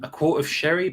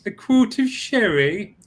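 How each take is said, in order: First: It is said tentatively and sincerely. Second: It is said in a mocking imitation.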